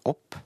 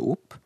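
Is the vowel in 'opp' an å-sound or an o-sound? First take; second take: å-sound; o-sound. First: The vowel is an open å-sound. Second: The vowel is a closed o-sound. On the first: This is today's form, taken from Danish. "Det uttales som å-lyd" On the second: This is the older local dialect form. "ble det uttalt med o-lyd, altså opp"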